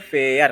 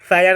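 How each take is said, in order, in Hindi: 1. स्वर 'air' जैसा बोला जाता है, जैसे fair में। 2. स्वर 'eye' जैसा बोला जाता है, जैसे fire में। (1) "इसको बोलेंगे फेयर" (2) "इसको फायर नहीं पढ़ के"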